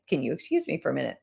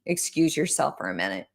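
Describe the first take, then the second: First: Quick, soft excuse to step away; polite excuse. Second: Said in the usual way. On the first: Shown as a demonstration. Coach excusing herself from a client, quick and soft. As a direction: slip out of the talk politely and fast. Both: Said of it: "Literally just say".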